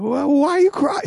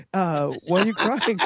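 First: High, loud, frantic question; mock exasperated yell. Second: Toned-down retake, slightly high; mock restrained question. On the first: Dad confronts his crying daughter, mock frantic yell. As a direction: play a dad losing it at tears. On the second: Dad asks his crying daughter, mildly flustered. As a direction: ask it as a flustered dad reining himself in. Retells asking again, more restrained.

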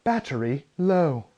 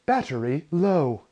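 First: Slow, lightly robotic British lady; a mild imitation of the warning voice. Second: A lightly voiced robotic British lady, slow and level. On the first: Headphones warning him again, slow mock robot voice. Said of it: "I get another". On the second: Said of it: "robot G P S British lady voice goes".

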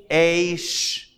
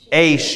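First: "Aish" held long on the vowel; slow sounding-out. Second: Said in the usual way. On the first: Shown as a demonstration. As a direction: sound out "Aish" slowly: aaay-sh. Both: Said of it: "go a little slow".

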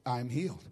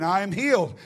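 First: Low, soft, imitating a barely returning voice; faint voice. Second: Returning voice. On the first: Woman feels a tingle in her throat, speaks faintly. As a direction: let just a little voice through. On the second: Retold or imitated. Woman declares it once more as her voice returns, stronger. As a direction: give it a little more voice. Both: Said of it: "I had a little more voice".

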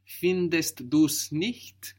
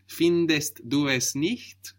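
First: "du's" run together as one syllable, slowly; contracted. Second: "du es" as two separate words; uncontracted. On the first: Teacher confirming the learner's answer, with the contraction. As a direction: join du and es into "du's", no E. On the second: Teacher showing the full form, without the contraction. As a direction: sound the E of "es" after "du". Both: Shown as a demonstration. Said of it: "with the contraction".

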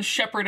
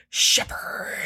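First: Said in the usual way. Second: Long, whispered creature rasp; Todd the Wraith. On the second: Acted. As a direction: draw the name out in a menacing whisper. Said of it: "it's Todd the Wraith, is going".

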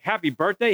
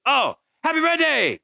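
First: "Happy birthday?" rising at the end as a question; puzzled question. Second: Put-on high, excited little-kid cheer; excited child. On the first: Retold or imitated. Dad querying the boy's wrong greeting, puzzled question on "Happy birthday?". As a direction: echo "Happy birthday?" back, lifting the end in doubt. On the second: Little boy on the toilet greeting his dad, excitedly. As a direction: blurt it out gleefully, pitched way up.

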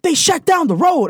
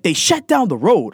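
First: Higher, slower, emphatic repeat; insistent mock mom repeating the news; repeating it louder. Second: Said in the usual way. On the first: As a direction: say it again, louder and slower so he gets it. Mom repeats after "They did what?.

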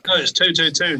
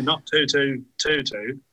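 First: "two two two" hit high and loud; stress on two two two. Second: "two two two two" said slowly, each "two" spaced out; slow correction. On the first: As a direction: punch each "two" in "two two two" firmly. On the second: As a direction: drag out "not two two two two" word by word. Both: Real, not acted.

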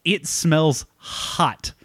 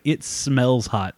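First: Slow, drawn-out deadpan verdict, pitched up; deadpan salesman. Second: Slow, drawn-out deadpan verdict at normal pitch; mock deadpan salesman. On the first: Retold or imitated. Salesman telling the driver the car smells, slow deadpan. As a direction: drag each word out like grim news. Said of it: "He's like". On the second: Salesman sniffing the clutch, slow mock deadpan. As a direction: drag the words out, lightly imitating. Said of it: "he was like".

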